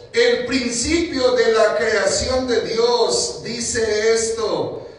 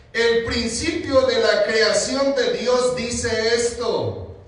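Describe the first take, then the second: The two takes are said the same way.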